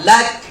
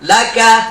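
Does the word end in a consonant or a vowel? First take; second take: consonant; vowel. First: The word ends on a consonant. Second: The word ends with a final vowel. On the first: The reader stops at this word. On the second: The reading continues without stopping.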